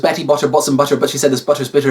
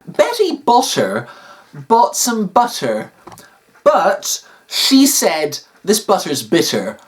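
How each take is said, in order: First: It is said very rapidly. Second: It is said at a slower pace.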